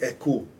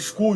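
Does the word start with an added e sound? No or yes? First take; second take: yes; no. First: An e sound is added before the s. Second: It starts directly with the s sound. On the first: "you put the E in front of every S" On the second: "instead of saying school"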